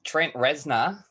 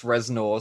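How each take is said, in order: First: Aussie bogan accent. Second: Reznor said carefully with a clear final r; proper pronunciation. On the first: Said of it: "There you go, in a, a bogan accent". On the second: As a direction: Reznor pronounced as spelt, ending in a full "nor". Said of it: "It's pronounced [name]". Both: Shown as a demonstration.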